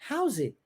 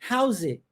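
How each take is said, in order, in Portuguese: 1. As palavras são unidas e o t final é omitido. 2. As palavras são unidas e o t final é omitido.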